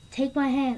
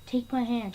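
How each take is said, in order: First: Urgent call. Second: Gentle plea. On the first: Gamora calling to Peter holding the stone, urgent call. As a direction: Take my hand called out louder and higher. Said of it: "And then Gamora goes". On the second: His mom reaching for dying Peter, gentle plea. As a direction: ask it gently, like a mother. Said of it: "and she goes". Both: Retold or imitated.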